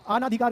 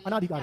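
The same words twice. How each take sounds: First: अनाधिकार with a long opening "aa"; wrong form, long second vowel. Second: अनाधिकार with a short first "a"; correct short opening vowel. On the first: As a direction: open अनाधिकार on a stretched "aa". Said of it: "अनाधिकार नहीं होता बच्चों". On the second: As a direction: open अनाधिकार on a brief "uh". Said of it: "अनाधिकार होता है". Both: Shown as a demonstration.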